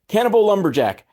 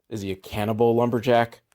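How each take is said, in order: First: Higher, punchy excited pitch. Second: Said in the usual way. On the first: Real, not acted. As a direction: sell it like a movie title. Idea repeated as pitch.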